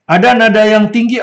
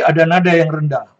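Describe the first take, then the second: First: Raised, louder pitch on "tinggi"; high tone. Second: Low tone. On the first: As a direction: say "ada nada yang tinggi" high and strong. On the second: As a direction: drop back down to usual pitch, falling on "rendah". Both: Shown as a demonstration.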